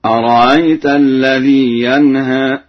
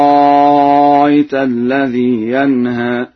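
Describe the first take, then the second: First: Slow, louder recitation, no hard stop inside أرأيت; softened hamza. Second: Slow, louder recitation, second hamza of أرأيت becomes prolonged aa; hamza as long alif. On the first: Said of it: "بتسهيل الهمزة التي بعد الراء بين بين". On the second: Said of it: "بإبدالها ألفا مع الإشباع هكذا". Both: Shown as a demonstration.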